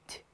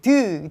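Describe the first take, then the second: First: The consonant is released with no following vowel. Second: The consonant is followed by an added vowel sound. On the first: The speaker calls it right. "이 소리지" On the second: The speaker calls it wrong. "이 소리 아니에요"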